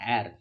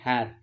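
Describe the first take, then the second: First: The word begins directly with a vowel sound. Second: The word begins with an audible h sound. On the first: The speaker calls it right. "அந்த ஏர்னு தான் சொல்லணும்" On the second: The speaker calls it wrong. "ஹெச்இஐஆர் ஹேர்னு சொல்லுவோம் இல்லையா?"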